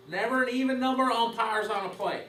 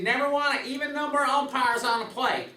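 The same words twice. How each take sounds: First: Said in the usual way. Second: Put-on higher Texas twang, quoting an old umpire instructor; imitating a Texas twang; Jim Evans Texas twang. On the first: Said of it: "restated in own voice". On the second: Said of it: "in his Texas twang".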